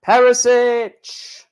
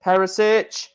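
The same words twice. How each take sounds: First: Slow, stretched and higher; mock announcer calling the name; drawn-out name call. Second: Said in the usual way. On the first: Calling out drawn player names.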